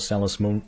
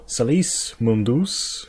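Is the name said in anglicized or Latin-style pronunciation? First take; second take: anglicized; Latin-style. First: The name is said with anglicized pronunciation. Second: The name is said with Latin-style pronunciation. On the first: The speaker calls it wrong. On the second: The speaker calls it right.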